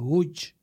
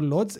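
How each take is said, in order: First: It starts with a W-like sound, ending 'ch'. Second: It is read as spelled, starting with L. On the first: This is how it should actually be said. The speaker calls it right. "ezt viszont úgy kell mondani, hogy" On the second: This is how it looks written on the map. The speaker calls it wrong. "a térképen ránézünk, akkor Lodz"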